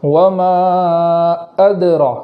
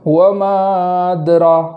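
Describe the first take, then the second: First: The glottal catch after the long vowel is strong. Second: The glottal catch after the long vowel is weak. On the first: The speaker calls it right. "हमज़ा को खूब झटके के साथ पढ़ेंगे" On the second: The speaker calls it wrong. "हमज़ा का झटका रह जाता है ... तो ये गलत है"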